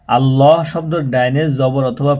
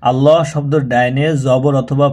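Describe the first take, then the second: No difference in how they are said.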